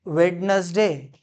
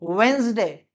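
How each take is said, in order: First: वेडनेसडे drawn out with the d sounded, "WED-nes-day"; wrong pronunciation. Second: वेडनेसडे squeezed to two syllables, "WENZ-day"; correct pronunciation. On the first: Teacher shows a misreading, वेडनेसडे slowly with a sounded d. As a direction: read वेडनेसडे slowly as spelt, three syllables. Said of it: "ये ना वेडनेसडे है". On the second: Teacher answers own quiz, वेडनेसडे as two-syllable "wenz-day". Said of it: "इसे हम पढ़ते हैं". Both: Shown as a demonstration.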